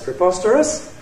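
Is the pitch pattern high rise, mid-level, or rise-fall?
high rise. The pitch rises from a high point. "High rise"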